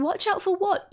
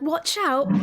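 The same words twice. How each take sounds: First: High-pitched, oblivious questioning; puzzled question. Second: Higher, mildly raised warning cry; mock warning yell. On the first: Acted. Game master voicing Eaz looking around, puzzled question. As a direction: ask it higher, as if looking around confused. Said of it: "Iazgo looks around". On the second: Game master voicing Selly warning Eaz, mock yell. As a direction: imitate a friend yelling a warning, without full force. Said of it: "Sally yelling out, going, like".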